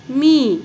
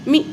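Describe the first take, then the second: First: मी said with a long, held ई; long ee demo. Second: मी clipped to a short इ as the wrong way; short mi demo. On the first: Teacher showing the long ई sound to pupils. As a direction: hold the ई in मी long. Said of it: "दीर्घच होतोय". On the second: Teacher modelling the wrong short vowel for pupils. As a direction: say मी with a quick short इ. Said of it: "असं म्हणतो का?". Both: Shown as a demonstration.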